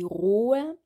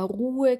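First: The vowel is a long o sound. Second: The vowel is a long u sound. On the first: The speaker calls it wrong. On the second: The speaker calls it right.

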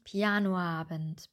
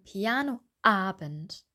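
First: The two vowels run together without a break. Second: The two vowels are separated by a short break. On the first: The speaker calls it wrong. "nicht Pianoabend" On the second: The speaker calls it right. "Wir würden auch sagen Pianoabend"

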